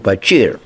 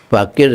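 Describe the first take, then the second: First: The middle consonant is a ch sound. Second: The middle consonant is a k sound.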